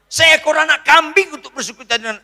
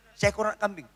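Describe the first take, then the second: First: Loud, high complaining quote; elder son complaining. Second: Said in the usual way. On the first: Acted. Elder son complaining to his father, loud and high. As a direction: say it as the aggrieved son. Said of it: "apa katanya?". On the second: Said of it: "repeats the quoted words".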